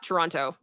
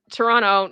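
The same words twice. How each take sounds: First: "Toronto" with both T's sounded; non-native pronunciation. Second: "Toronto" as tuh-RON-no; native Toronto pronunciation. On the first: Streamer showing the outsider version, "Toronto" with a clear second T. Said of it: "it's Toronto". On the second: Streamer confirming local usage, "Toronto" without its second T. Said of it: "not Toronto". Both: Shown as a demonstration.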